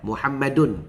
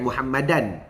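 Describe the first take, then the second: First: The name ends with an 'un' sound. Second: The name ends with an 'an' sound. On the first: The speaker calls it right. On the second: The speaker calls it wrong. "bukan Muhammadan"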